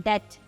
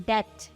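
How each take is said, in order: Both takes have the same delivery.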